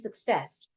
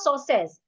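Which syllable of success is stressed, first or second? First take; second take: second; first. First: The stress is on the second syllable. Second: The stress is on the first syllable. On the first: The speaker calls it right. "we're stressing the second syllable" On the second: The speaker calls it wrong. "it's not success"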